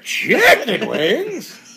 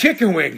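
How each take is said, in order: First: It is said as an incredulous rising question. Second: It is said as a plain falling statement. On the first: The listener repeats it back in disbelief. "he throws it back as a question" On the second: The speaker is simply stating something. "you say something"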